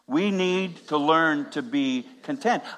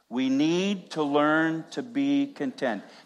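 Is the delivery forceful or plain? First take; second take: forceful; plain. First: It is said firmly, with strong conviction. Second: It is said in an ordinary, plain way. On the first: "Now with conviction" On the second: "Say it with me"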